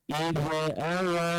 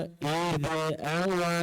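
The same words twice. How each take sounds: Both takes have the same delivery.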